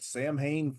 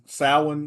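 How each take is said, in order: First: It is said as the English spelling suggests. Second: It is said with the Irish pronunciation. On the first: The speaker calls it wrong. "I was pronouncing it in the manner of uh, of the late great Donald Pleasance" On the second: The speaker calls it right. "I'm sorry, uh, Samhain. I guess it's Samhain"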